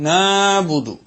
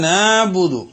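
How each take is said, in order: Both takes have the same delivery.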